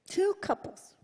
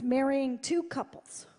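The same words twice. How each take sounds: First: "Two" lifted higher and punched; stress on two. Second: Said in the usual way. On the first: Real, not acted. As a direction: land hard on "Two".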